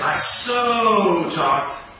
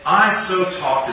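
First: The word so is said with strong emphasis. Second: The word so is said without special emphasis. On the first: It means talking to a great degree. The speaker calls it wrong. "I don't say" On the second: It means talking in such a way. The speaker calls it right. "If I say"

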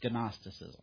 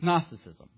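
First: The initial G is pronounced before the N. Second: The initial G is silent, starting with N. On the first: The speaker calls it wrong. "unless you don't want it to be, and then it's Gnosticism. But nobody says that" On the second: The speaker calls it right. "Silent G"

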